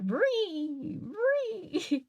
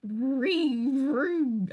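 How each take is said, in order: First: A much higher vree vree, rising on the second; higher car noise. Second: A falling vree vree, like a little car; imitated car noise. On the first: Retold or imitated. Streamer repeating the game's car noise higher, playful. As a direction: push the car sound up high and silly. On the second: Streamer imitating the game's car noise, playful. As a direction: mimic the car sound in the game. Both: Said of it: "That's the sound".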